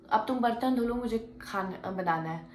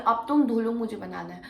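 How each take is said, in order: First: Said in the usual way. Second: Loud, bossy mock order; imitating attitude. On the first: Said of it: "इस attitude में कहती है". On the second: Didi ordering her to wash dishes, bossy attitude. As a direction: throw the command at her with attitude. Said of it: "वो इस attitude में कहती है".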